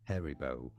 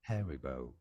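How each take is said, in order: Both takes have the same delivery.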